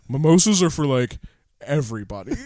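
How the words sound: It is said in a deep voice.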